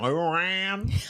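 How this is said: The name is said in a country accent. This imitates how the other person said it. "And you went, Lou Ran. ... That's country"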